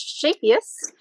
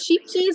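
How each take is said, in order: First: It sounds like one word, shapius. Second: It sounds like two English words, sheep cheese. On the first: The speaker calls it right. "I cannot pronounce it one hundred percent correctly" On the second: The speaker calls it wrong. "what I used to say is sheep cheese, and found out that is incorrect"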